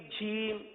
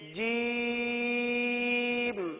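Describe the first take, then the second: First: It begins with a buzzing zh sound. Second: It begins with a clear j sound. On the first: The speaker calls it wrong. "जीम के बजाय इसको झीम पढ़ते हैं" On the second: The speaker calls it right. "ये जीम का मखरज है"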